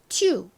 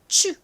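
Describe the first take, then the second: First: The syllable begins with a t sound. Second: The syllable begins with a ch sound. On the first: The speaker calls it wrong. "튜 이렇게 읽혀야 될 것 같지만" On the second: The speaker calls it right. "추 요렇게 발음을 해주시면 됩니다"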